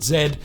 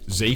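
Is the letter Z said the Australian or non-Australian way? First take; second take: Australian; non-Australian. First: The letter is said the Australian way. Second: The letter is said the non-Australian way. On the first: This is how Australians say it. "but here in Australia, we pronounce it Z" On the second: This is how other parts of the world say it. "Isn't it pronounced Z Fold three? Well, yes, in parts of the world it is"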